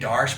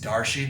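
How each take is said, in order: First: The name ends in a consonant sound. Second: The name ends in a vowel sound. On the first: The speaker calls it wrong. "I keep saying Darsh" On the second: The speaker calls it right. "I think it's Darshi. That's how they pronounce it in Australia"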